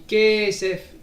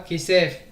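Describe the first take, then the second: First: The stress is on the first syllable. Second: The stress is on the last syllable. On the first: The speaker calls it right. "Kesef est miléael, donc on dit kesef" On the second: The speaker calls it wrong. "et pas kesef"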